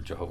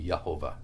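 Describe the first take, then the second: First: The word begins with a J sound. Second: The word begins with a Y sound. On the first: "Or if it were Jehovah" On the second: "the J in Hebrew is pronounced like a Y"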